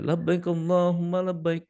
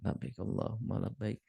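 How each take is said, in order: First: It is said fairly loudly. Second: It is said softly, murmured.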